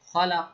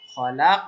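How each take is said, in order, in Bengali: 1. শব্দটি ছোট a স্বরে শেষ হয়। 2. শব্দটি ধাক্কা দেওয়া, প্রতিধ্বনিত q-তে শেষ হয়। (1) "খলাক জবর আছে" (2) "খলাক বলে আমাকে থামতে হবে"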